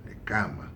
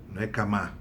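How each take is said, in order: First: Cama said with the stress on the first syllable, CA-ma; correct stress demo. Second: Camá said with the stress on the last syllable, ca-MÁ; wrong stress demo. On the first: Teacher correcting students, stress on CA-ma. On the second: Teacher showing students the wrong stress, ca-MÁ. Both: Shown as a demonstration.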